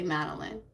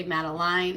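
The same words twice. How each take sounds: First: "Madeline" ending in a short "-lin"; "Madeline" with the end clipped to "lin"; Madeline said the other way. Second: "Madeline" ending in "-line" like "lyne"; "Madeline" rhyming its end with "line"; Madeline said one way. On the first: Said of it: "and some people say Madeline". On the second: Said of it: "some people say Madeline". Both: Shown as a demonstration.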